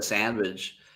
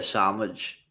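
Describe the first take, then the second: First: The first syllable is pronounced with n and d. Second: The first syllable is pronounced like 'sam'. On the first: This is how others say it. "we don't say sandwich" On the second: This is how the speaker's community says it. "we say sandwich, like S A M"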